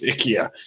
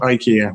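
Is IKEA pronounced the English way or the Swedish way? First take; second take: Swedish; English. First: It is pronounced the Swedish way. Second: It is pronounced the usual English way. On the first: The speaker calls it right. "As the Swedish gentleman on the adverts tells me, it's IKEA" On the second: The speaker calls it wrong. "It is not IKEA. We all say it wrong"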